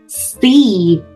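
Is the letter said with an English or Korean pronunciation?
English. The letter is said with English pronunciation. The speaker calls it right. "영어 발음 그대로 C"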